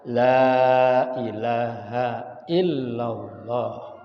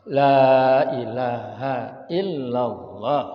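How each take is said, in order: First: The vowel in 'la' is held long. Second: The vowel in 'la' is held long.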